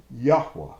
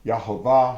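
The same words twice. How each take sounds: First: Yahweh said YAH-weh, louder; pronouncing Yahweh. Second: Yahovah said yah-HO-vah, louder; pronouncing Yahovah. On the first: Preacher giving two ways to say the name, YAH-weh. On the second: Preacher giving two ways to say the name, yah-HO-vah. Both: Shown as a demonstration. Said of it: "however you pronounce his name".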